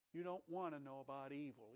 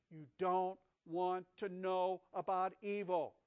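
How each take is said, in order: First: Softer, lower \"You don't want to know about evil\"; gentle warning. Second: \"You don't want to know about evil\" slow and louder; slow emphatic. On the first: Acted. God gently warning Eve. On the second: Shown as a demonstration. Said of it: "It's defiling".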